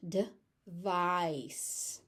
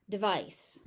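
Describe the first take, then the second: First: "Device" with a tiny "de" and long stretched "VICE"; short first syllable. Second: Said in the usual way. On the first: Shown as a demonstration. Teacher showing where the stress goes, stretched second syllable. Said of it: "first syllable is very short". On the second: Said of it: "all the stretch goes into".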